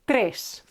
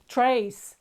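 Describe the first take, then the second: First: The vowel is short and clipped. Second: The vowel is drawn out like in 'ace'. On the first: The speaker calls it right. "This e is short" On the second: The speaker calls it wrong. "they drank this e so much it sounded like ace"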